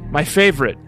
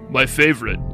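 First: The voice is high and squeaky. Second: The voice is low and deep. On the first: "my squeaky boy voice" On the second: "Let me do that in a man voice"

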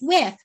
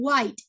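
First: The name sounds like the word with. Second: The name sounds like the word white. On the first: The speaker calls it right. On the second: The speaker calls it wrong.

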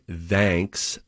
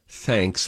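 First: The th is voiced, as in 'that'. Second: The th is voiceless, as in 'think'. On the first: The speaker calls it wrong. "I always say thanks, like you would say that or they" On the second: The speaker calls it right. "when you're supposed to say thanks, like you would say think"

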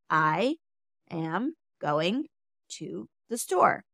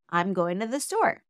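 First: The words come slowly, one at a time. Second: The words come at an even, natural pace. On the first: "take your time with each word" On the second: "And then more naturally"

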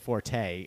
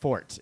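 First: The word ends with a pronounced final vowel. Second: The word ends with no final vowel. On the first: The speaker calls it wrong. "we were saying forte" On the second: The speaker calls it right. "It's pronounced"

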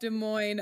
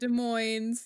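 First: The final S is silent. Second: The final S is pronounced. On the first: The speaker calls it right. "You don't say the S" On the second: The speaker calls it wrong. "If you say the S"

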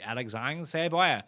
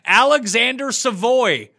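First: The name is said with a French-style pronunciation. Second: The name is said with an American pronunciation. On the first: "but I am not American, so I would say Alexandre Savoie" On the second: "If I was American, I'd be like, Alexander Savoy is how I would pronounce it"

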